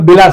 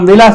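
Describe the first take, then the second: First: The word begins with a b sound. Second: The word begins with a v sound. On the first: This is how people in Bengal say it. "బిలాస్ అంటారు" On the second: This is how people here say it. "మనం విలాస్ అంటే"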